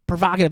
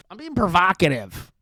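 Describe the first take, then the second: First: Louder, punchy mock-smug Provocative; Nick Fuentes impression. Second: Said in the usual way. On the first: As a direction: toss off Provocative like a smug pundit. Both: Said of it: "That's my Nick Fuentes impression".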